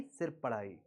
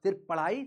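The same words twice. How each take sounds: First: सिर्फ पढ़ाई dropped low and soft, सिर्फ leaned on; firm low final word. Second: Said in the usual way. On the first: Shown as a demonstration. Teacher warning students to only study, low and firm. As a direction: settle it quietly: सिर्फ पढ़ाई. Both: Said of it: "कोई गलत comment no".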